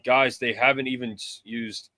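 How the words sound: It is said in a put-on cartoon voice.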